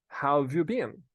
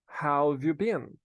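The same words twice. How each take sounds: First: The word 'have' is shortened to a 've sound. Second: The word 'have' is shortened to a 've sound.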